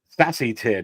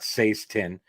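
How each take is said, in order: First: The first vowel is short, as in 'sass'. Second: The first vowel is long, as in 'face'. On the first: The speaker calls it right. "Charlie the Unicorn says sassy" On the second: The speaker calls it wrong. "not not sace tin"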